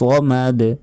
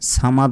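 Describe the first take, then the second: First: The final consonant ends with a bounce. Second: The final consonant ends without a bounce. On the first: The speaker calls it right. "শেষে ধাক্কা দিতে হবে" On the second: The speaker calls it wrong. "সামাদ নয়"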